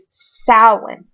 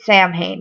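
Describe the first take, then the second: First: The word is said in the Irish Gaelic way. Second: The word is said in the common modern way. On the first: "the proper pronunciation of Samhain is Samhain, um, Irish Gaelic" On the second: "most people pronounce it Samhain nowadays"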